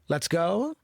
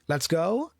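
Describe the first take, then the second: First: The voice rises at the end, like a question. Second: The same.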